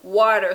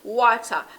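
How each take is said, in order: First: It is said with a standard English pronunciation. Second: It is said with a Jamaican patois pronunciation. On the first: "the English word is water" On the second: "The third word in Jamaican patois is water"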